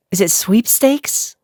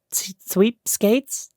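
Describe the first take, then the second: First: "sweepstakes" said slowly with a questioning rise; slow, checking "sweepstakes"; careful pronunciation. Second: "sweepskates" said slowly, stumbling over the word; slow, unsure "sweepskates"; fumbled pronunciation. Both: Real, not acted. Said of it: "Do I not know that word?".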